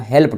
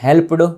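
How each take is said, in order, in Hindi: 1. अंत को छोटी 't' ध्वनि की तरह बोला जाता है। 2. अंत 'ed' को एक अलग अक्षर की तरह बोला जाता है। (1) "हेल्प्ड होता है" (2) "हेल्प्ड बोलेंगे तो गलत हो जाएगा"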